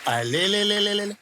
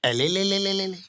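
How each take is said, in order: First: Put-on drawn-out cooing at a baby; slower baby talk cooing. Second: Put-on cooing at a baby; baby talk cooing. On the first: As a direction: coo slowly like a doting uncle. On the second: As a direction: coo like a doting uncle. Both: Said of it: "uncle प्यार कर रहे".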